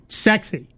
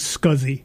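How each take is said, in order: First: The word sounds like 'sexy'. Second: The word does not sound like 'sexy'. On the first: This is a proposed rebranding of the name. "Steve Jobs tried to get people to pronounce it sexy" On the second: This is the standard name for the interface. "is properly called SCSI"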